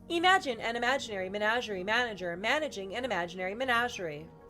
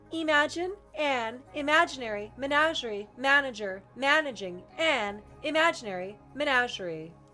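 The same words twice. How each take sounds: First: It is spoken at a natural conversational pace. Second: It is spoken slowly and deliberately. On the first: "Same voice, but natural" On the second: "So this is still measured"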